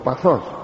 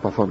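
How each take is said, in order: First: The word ends with an -os sound. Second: The word ends with an -on sound. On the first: This is the popular everyday form. The speaker calls it wrong. "το λέει ο λαός" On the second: This is the proper learned form. The speaker calls it right. "ενώ το σωστό παθόν"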